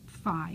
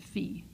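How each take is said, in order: First: It is said the American way. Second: It is said the non-American way.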